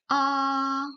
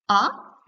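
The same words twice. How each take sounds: First: The pitch stays high and level. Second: The pitch starts low and rises. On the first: "Le premier ton, O est plat. C'est une voix stable" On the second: "Votre voix part du bas et monte"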